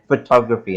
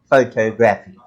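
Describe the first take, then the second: First: The unstressed vowels are weak and reduced. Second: All the vowels are pronounced full and strong. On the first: The speaker calls it right. "we know automatically that, that it's photography" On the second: The speaker calls it wrong. "and not photography"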